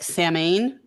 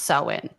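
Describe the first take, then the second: First: The word is sounded out letter by letter. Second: The word is not sounded as spelled. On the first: This is how people commonly say it. The speaker calls it wrong. "people will pronounce it like" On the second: This is the true way to say it. The speaker calls it right. "it's actually pronounced"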